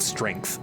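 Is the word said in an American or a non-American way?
American. It is said in an American way. The speaker calls it wrong. "not strength. Strength is the American way to say it"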